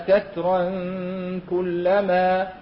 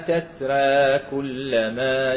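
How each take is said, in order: First: The word ends in a nasalized -an before kullama. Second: The final vowel sits halfway between a and e. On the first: "يقرون في حال وصل بحكم إيش؟ تنوين بعده حرف الكاف حكم الإخفاء" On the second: "التقليل"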